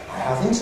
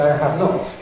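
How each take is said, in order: First: The accent falls on the word haven't. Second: The accent falls on the word not. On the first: "it goes on to have" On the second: "to accent not and say"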